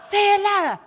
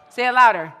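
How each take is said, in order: First: High, very loud crowd-rousing yell; rousing shout. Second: Loud, firm command to a crowd; rousing call. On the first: Speaker pushing youth to chant harder, rousing shout. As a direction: shout it, pitched way up, to fire up the crowd. Urging crowd to repeat louder. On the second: Speaker urging youth to repeat three words, rousing call. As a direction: project it to the back of the room. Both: Real, not acted.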